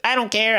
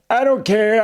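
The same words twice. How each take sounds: First: It is said in a child-like voice. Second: It is said in a voice unlike a child's. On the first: The speaker calls it right. "The kid's like" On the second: The speaker calls it wrong. "sorry, I did the wrong voice"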